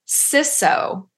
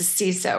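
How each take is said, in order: First: The first syllable sounds like 'sis'. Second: The first syllable sounds like 'see'. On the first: The speaker calls it wrong. "Not to be confused with CISO, because I was just schooled in that pronunciation. There are no sissies" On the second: The speaker calls it right. "It's the CISO, right?"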